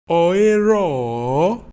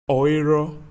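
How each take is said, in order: First: The final vowel is repeated and drawn out. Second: The final vowel is short and not repeated. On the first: She is not present. "repeat the last vowel of the sentence or of the phrase and draw it out" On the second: She is present. "she's present"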